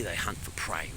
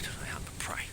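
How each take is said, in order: First: Said in the usual way. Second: Hushed whisper of "They hunt for prey"; conspiratorial whisper about hunting dogs. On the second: Shown as a demonstration. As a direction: drop to a secretive whisper on "hunt". Repeats line as a whisper.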